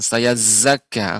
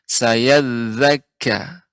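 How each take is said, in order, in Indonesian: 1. Konsonan itu dilafalkan sebagai z biasa. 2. Konsonan itu dilafalkan sebagai th bersuara. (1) "Za jangan sampai berubah jadi za, bukan saya zakka" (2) "akan tapi saya zakka"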